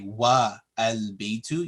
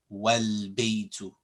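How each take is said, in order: First: A separate vowel is said before the L. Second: The vowel is skipped, joining wa to l. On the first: The speaker calls it wrong. "You don't say wa al baytu" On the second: The speaker calls it right. "You would say wal baytu"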